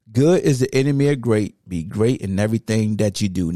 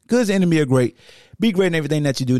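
First: Steady, measured recitation of "Good is the enemy of great", pitched lower; careful quote. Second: Hurried, tumbling read of "Good is the enemy of great"; rushed quote. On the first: Shown as a demonstration. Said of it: "All right, you say it". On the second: Real, not acted. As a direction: rush "Be great in everything that you do" without pausing. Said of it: "you messed up the quote".

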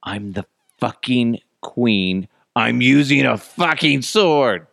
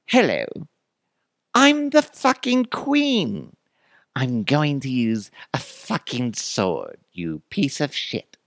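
First: Put-on slow, emphatic royal declaration in own accent; mock indignant queen. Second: Slow, high-pitched English queen; drawn-out English accent, dropping at the end; mock English accent. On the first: Queen refusing the peon's cake knife, slow and emphatic. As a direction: build slowly to a louder finish. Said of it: "Then the queen allegedly said". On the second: Queen scolding the peon, hammed-up English accent. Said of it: "try to do an English accent".

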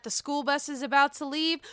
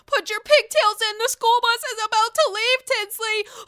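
First: Said in the usual way. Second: High, loud imitation of a taunting call; mock mother's call. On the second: Dorinda taunting Tinsley about the school bus, mock loud call. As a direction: call it out high as if herding a child.

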